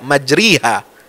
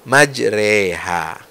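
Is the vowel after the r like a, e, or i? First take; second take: i; e. First: The vowel after r is a pure i. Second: The vowel after r is between a and i. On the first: The speaker calls it wrong. "tidak kasrah murni, tidak majriha" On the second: The speaker calls it right. "antara fathah dengan kasrah"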